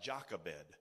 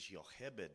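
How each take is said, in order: First: The name begins with a J sound. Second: The name begins with a Y sound. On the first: This is how the spelling reads in English. The speaker calls it wrong. "it looks like Jochebed in English" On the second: This is how it is said in Hebrew. The speaker calls it right. "the Hebrew pronunciation is Jochebed. The Hebrews didn't have a J, they had a Y"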